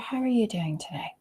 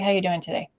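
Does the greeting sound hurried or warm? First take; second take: warm; hurried. First: It sounds unhurried, warm and attentive. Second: It sounds quick, distracted and perfunctory. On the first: The speaker genuinely cares about the answer. The speaker calls it right. "the tone, the way you use your voice is very different" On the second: The speaker is just ticking off a task. The speaker calls it wrong. "comes across like this is a bullet point on my agenda and you should answer as quickly as possible"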